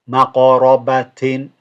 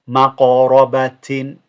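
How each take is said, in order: The two takes are said the same way.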